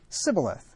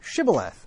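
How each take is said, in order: First: The word begins with an s sound. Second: The word begins with an sh sound. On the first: The speaker is an enemy trying to get in. The speaker calls it wrong. "He can't pronounce the SH" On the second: The speaker belongs to the group allowed in. The speaker calls it right. "say now"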